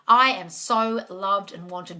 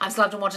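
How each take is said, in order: First: It is said sincerely, like telling a friend. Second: It is rattled off mechanically, like rote repetition.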